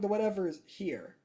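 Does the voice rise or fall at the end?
fall. The voice falls at the end, like a statement.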